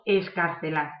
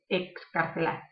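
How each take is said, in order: First: The x is sounded as a plain s. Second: The x is sounded as k plus s. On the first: The speaker calls it wrong. "de la X pasamos a la S y no, no pronunciamos bien" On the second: The speaker calls it right. "ahí tenemos la K S"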